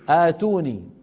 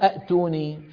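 First: It begins with one glottal stop and a long a. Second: It begins with two glottal stops in a row. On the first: The speaker calls it right. "شو بيقولوا؟ آتوني" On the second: The speaker calls it wrong. "العرب ما بيقولوا أأتوني"

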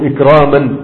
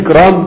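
First: The word ends with an added -an sound. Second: The word ends without any added -an sound. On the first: It is used as an absolute object inside a sentence. The speaker calls it wrong. "ما تقولش بالتنوين" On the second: It is the bare verbal noun on its own. The speaker calls it right. "قل اكرام يكفي"

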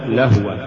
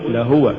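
First: The prefix blends into the word's first syllable. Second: The vowel after the prefix is fully pronounced. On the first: The word comes from amusement. The speaker calls it wrong. "ولا تقل لهو" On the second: The first letter is a separate prefix. The speaker calls it right. "قل لهو"

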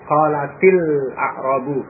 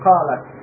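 First: The t takes an i and links onward. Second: The word ends in a bare t sound. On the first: The vowel avoids two silent consonants meeting. "dalam ayat itu dibaca kasrah karena sesudahnya alif lam" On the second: This is the original form of the word. "asalnya taknya disukun ya"

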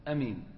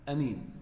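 Both takes have the same delivery.

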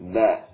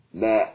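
First: The final consonant lets sound keep flowing. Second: The same.

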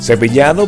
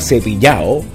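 First: The d before the final o is pronounced. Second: The d before the final o is dropped. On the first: This is how most of the country says it. "para el resto de Venezuela" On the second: This is how people from Maracaibo say it. "para la gente de Maracaibo"

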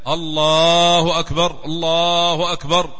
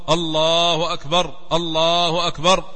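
No difference in how they are said.

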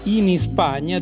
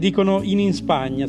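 First: Spagna follows in with no added vowel. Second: An extra i sound comes before Spagna. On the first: "invece di dire in Spagna" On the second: "cioè dicono due volte la in Spagna"

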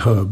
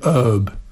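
First: The word begins with an audible h sound. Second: The word begins with no h sound. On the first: "Americans don't say herb" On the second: "they say herb. Nie wymawiają H"

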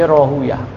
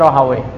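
First: The name ends with a 'yah' sound. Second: The name ends with a 'wai' sound. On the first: This is the reading used by hadith scholars. "Kalau ulama hadis mereka membaca Rahuyah" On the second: This is the reading used by grammarians. "Kalau ulama alinahu bacanya Rahawai"

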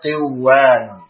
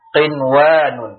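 First: The first n sound is merged away into w. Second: The first n sound is pronounced clearly before w. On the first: The speaker calls it wrong. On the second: The speaker calls it right.

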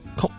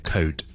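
First: It has a short vowel ending in k. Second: It has a gliding o vowel ending in d. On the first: The speaker calls it wrong. "用一个最接近的声音来去读它，那就会读成曲了" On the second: The speaker calls it right. "正确发音是code"

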